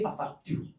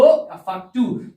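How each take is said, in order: First: Barely audible student answer, whispered; timid whisper. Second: A slower, fuller and louder reply; answer louder. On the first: Pupil answering the teacher too quietly, in a whisper. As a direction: mumble it as a shy pupil who dares not speak up. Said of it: "जरा जोर से बोलो, मैं सुनाई नहीं दे रहा।". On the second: Pupil repeats the answer louder after the teacher asks. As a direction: speak up clearly so the teacher can hear. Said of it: "जोर से बोलो". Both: Pretend.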